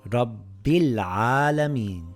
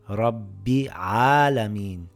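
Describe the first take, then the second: First: The l sound is clearly pronounced. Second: The l sound is skipped. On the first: The speaker calls it right. "I pronounce the lam" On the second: The speaker calls it wrong. "by skipping the lam"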